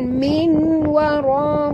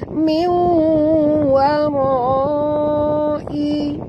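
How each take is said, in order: First: The n is pronounced clearly before the w. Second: The n merges into the w with nasalization. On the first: The speaker calls it wrong. "bukan min wara, bukan bunyi dia min" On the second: The speaker calls it right. "kena masukkan bunyi nun ke dalam waw"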